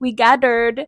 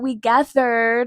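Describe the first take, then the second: First: The th sound in gathered is hard. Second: The th sound in gathered is soft. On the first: The speaker calls it wrong. "dice we gathered" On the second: The speaker calls it right. "La T H tiene que ser más suave"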